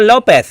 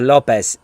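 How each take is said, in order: First: The final consonant sounds like 'th'. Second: The final consonant sounds like 's'. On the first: This is how people in Spain say the name. The speaker calls it wrong. "they're like, oh, Lopez" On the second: This is how the family says the name. The speaker calls it right. "I say no, Lopez"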